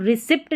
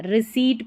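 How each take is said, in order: First: Short vowel and "pt" ending रिसिप्ट; wrong pronunciation. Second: Silent P in रिसीट; long "ee" then T in रिसीट; correct pronunciation. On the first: Teacher showing the error, रिसिप्ट with P pronounced. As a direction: sound the P in रिसिप्ट. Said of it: "रिसिप्ट नहीं पढ़ना है". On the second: Teacher showing the correction, रिसीट without P. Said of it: "रिसीट पढ़ना है". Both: Shown as a demonstration.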